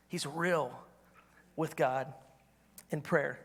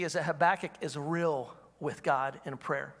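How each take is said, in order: First: He's real, with God, in prayer: a long pause between each phrase, softer; slow emphatic pauses. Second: Said in the usual way. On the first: Shown as a demonstration. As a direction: let each phrase land alone, then pause.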